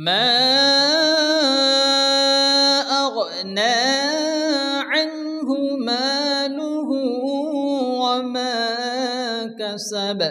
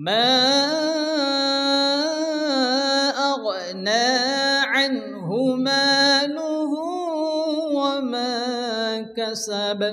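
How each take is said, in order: The two takes are said the same way.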